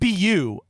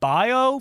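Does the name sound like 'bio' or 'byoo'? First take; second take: byoo; bio. First: The name is said like 'byoo'. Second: The name is said like 'bio'. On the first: This is how a commentator says it. "I think B U is how he said it" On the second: This is how the speaker has long said it. "I've been saying like bio for years"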